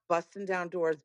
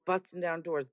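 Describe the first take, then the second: No difference in how they are said.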